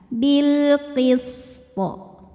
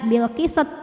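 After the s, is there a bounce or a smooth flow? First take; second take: smooth flow; bounce. First: The s flows smoothly; the final t bounces strongly. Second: The s sound is bounced with an added vowel. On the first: The speaker calls it right. "Sinnya tidak dipantulkan melainkan dialirkan" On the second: The speaker calls it wrong. "jangan sampai dibaca bilqisat"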